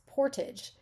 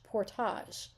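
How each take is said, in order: First: It is said with an American English pronunciation. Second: It is said with a French-style pronunciation. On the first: This is how it is said in the American Midwest. "In the American Midwest" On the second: This is how Canadians say it. "If you're Canadian, it's the French portage"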